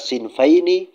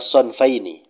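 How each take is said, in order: First: The first vowel sounds like 'i'. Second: The first vowel sounds like 'o'. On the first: "bisa sinfaini" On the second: "bisa juga dibaca ila sonfaini"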